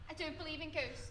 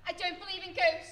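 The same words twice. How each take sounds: First: It is said at a normal volume. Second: It is said at a louder volume.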